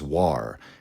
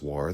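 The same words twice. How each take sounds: First: It has an older, exaggerated, distinct pronunciation. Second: It has the ordinary modern pronunciation. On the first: A distinct philosophical concept of that name. "probably a bit closer to the way the word was pronounced in Hobbes' time" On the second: The everyday word for armed conflict. "the ordinary word"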